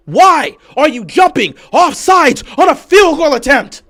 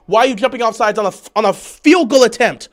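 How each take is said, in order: First: Slow, high, word-by-word yell; exasperated yelling. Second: Quick, loud complaint; exasperated question. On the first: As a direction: hammer out every word at full volume. Repeats question, slower and louder. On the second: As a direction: fire the question out loudly. First take of angry question. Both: Real, not acted.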